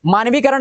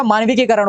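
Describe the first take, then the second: First: मानवीकरण as maanvi-karan; missing ki. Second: मानविकीकरण as maanviki-karan; added ki. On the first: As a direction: say मानवीकरण with one k. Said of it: "नहीं होता". (मानवीकरण, वी के बाद करण) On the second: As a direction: sound both k's of मानविकीकरण. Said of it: "होता है". (मानविकीकरण, की के बाद करण) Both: Shown as a demonstration.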